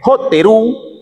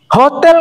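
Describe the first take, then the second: First: The L becomes R, with an added final vowel. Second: It is said plainly with an L sound.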